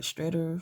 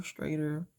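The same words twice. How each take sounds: First: "Shredder" tried with a short e, like "streh-der"; "Shredder" said tentatively with a short "eh" vowel; unsure pronunciation. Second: "strater" with a long a, like "stray-der"; "strater" said unsurely with an "ay" vowel; alternative pronunciation. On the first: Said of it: "I hope I said that right". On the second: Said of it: "I'm not sure how to say it". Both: Shown as a demonstration.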